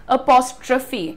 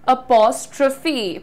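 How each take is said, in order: Both takes have the same delivery.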